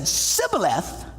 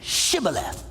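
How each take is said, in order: First: The word begins with an 's' sound. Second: The word begins with a 'sh' sound. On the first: The speaker is an Ephraimite. The speaker calls it wrong. "because he could not pronounce the word correctly" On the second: The speaker is from Gilead. The speaker calls it right. "well then say Shibboleth"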